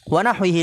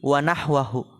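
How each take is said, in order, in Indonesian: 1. Kata itu berakhir dengan vokal 'i-hi'. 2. Kata itu berakhir dengan vokal 'a-hu'. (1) "tadi ana salah bacanya" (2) "wa nahwahu yang lebih benar"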